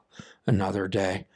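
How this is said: It is said wearily, with a sigh. The day ahead feels like a burden. "you sigh and say"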